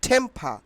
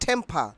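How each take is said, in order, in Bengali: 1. প্রথম t মহাপ্রাণ, ফুৎকার আছে। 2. প্রথম t মহাপ্রাণ, ফুৎকার আছে।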